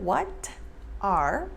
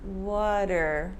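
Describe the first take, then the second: First: The two words are said separately. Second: The two words blend into one short word. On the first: "instead of" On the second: "Keep it short, keep it tight"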